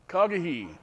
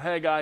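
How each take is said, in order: First: The name begins with a throaty K-like sound. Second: The name begins with a plain H sound. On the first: "it has a, a, a C H sound, a K sound really" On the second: "so you know who I'm talking about"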